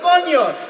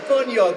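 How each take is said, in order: First: The word is said much louder. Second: The word is said more softly.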